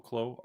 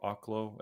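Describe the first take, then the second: First: Oklo said softly as OH-kloh; soft Oklo with a long O first; long-O pronunciation. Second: Oklo said softly as AH-kloh; soft Oklo with an open AH first; open-AH pronunciation. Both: Real, not acted. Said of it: "however you say it".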